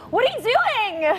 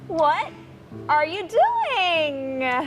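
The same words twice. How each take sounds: First: High pitch, fast pace, loud volume. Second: High pitch with slow, drawn-out pace. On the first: "suaranya tinggi, cepat dan um, volumenya tinggi" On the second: "Tinggi sama pelan-pelan"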